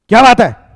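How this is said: It sounds angry.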